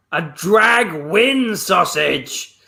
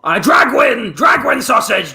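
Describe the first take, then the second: First: "drag win" split and said very slowly; slow correction. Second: Loud, insistent shouting; shouting demand. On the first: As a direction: spell out "drag win" slowly, both syllables stressed. Customer corrects dragon mishearing. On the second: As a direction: bellow the order at him. Customer demands sausage. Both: Acted.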